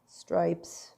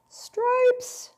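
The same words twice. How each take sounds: First: Said in the usual way. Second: Squeaky high stripes. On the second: Pretend. Making chocolate stripes.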